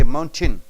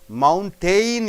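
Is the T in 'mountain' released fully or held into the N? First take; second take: fully; held. First: The T is fully released before the N. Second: The T goes straight into the N sound. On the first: The speaker calls it wrong. "you don't say mountain" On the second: The speaker calls it right. "You have to immediately jump from T to N"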